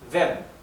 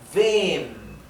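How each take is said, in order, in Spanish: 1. La vocal se pronuncia corta. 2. La vocal se pronuncia larga. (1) "como tenemos una doble M, se pronuncia wem" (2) "La E se pronuncia más larga"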